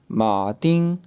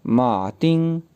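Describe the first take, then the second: No difference in how they are said.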